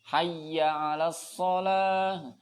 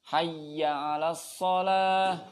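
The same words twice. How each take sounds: Both takes have the same delivery.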